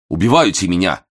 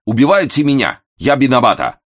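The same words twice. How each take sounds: First: Put-on Japanese accent, pleading. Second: High, loud wail in broken Russian; panicked cry, Japanese accent. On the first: Valet repeats, escalating. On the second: The Japanese valet wails to the angry guest, high and loud. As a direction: cry out louder the second time, panicking. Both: A narrator's reading.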